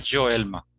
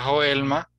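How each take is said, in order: First: "Joelma" with a voiced J; Brazilian J. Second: "Joelma" starting with a throaty H sound; J of "Joelma" as in Spanish. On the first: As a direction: model "Joelma" as in Portuguese. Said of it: "¿Cómo se pronuncia en Brasil". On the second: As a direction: model "Joelma" as "ho-EL-ma". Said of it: "sería Juliene". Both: Shown as a demonstration.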